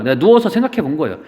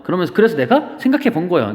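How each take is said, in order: First: 누워서 given the weight, said fast; 누워서 clearly marked in a quick line; stress on 누워서. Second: Said in the usual way. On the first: Shown as a demonstration. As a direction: lean on 누워서 to add the detail.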